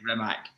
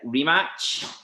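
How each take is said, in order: First: The name ends with a hard k sound. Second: The name ends with a ch sound. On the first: The speaker calls it wrong. "we all say Rimac" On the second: The speaker calls it right. "it's a chart sound at the end"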